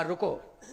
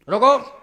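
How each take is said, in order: First: Said in the usual way. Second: Loud, sudden call to stop; shouted halt. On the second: Acted. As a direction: call out sharply to halt someone leaving. Kaushalya calls out to stop Ram.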